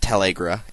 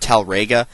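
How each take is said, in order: First: The r sound comes after the g sound. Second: The r sound comes before the g sound. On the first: This is how the game pronounces it. "they pronounce it Talagra" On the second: This is how the spelling looks. "it looks like Talrega"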